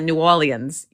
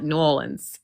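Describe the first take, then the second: First: It is said the way outsiders say it. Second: It is said the way locals say it. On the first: The speaker calls it wrong. "you do not call it New Orleans" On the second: The speaker calls it right. "you call it New Orleans"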